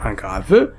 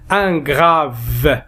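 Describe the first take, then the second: First: Grave with a sounded final E, grav-e; wrong pronunciation demo. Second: Grave with silent final E, just grav; correct model. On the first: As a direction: show the mistake, voicing the E of grave. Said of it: "on ne dit pas". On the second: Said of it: "E, on ne prononce pas". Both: Shown as a demonstration.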